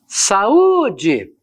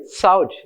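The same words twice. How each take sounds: First: Saúde in three syllables, sa-Ú-de; saúde with A and U split, U ringing out; hiatus, stressed U. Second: Saúde said as SAU-de; saúde in two syllables, quick falling sau; misread as diphthong. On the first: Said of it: "eu tenho aqui o hiato". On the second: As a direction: run A and U together in saúde, stress on the A. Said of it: "se não houvesse acento". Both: Shown as a demonstration.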